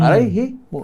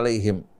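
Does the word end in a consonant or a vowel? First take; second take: vowel; consonant. First: The word ends with an extra u vowel. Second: The word ends on the consonant m. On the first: "Ada sebagian kaum membaca alaihimu" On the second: This is the common reading matching the written form. "tulisan tetap alaihim"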